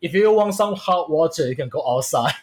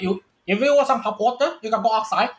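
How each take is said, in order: First: It is said in the speaker's normal accent. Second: It is said in an imitated Indian accent.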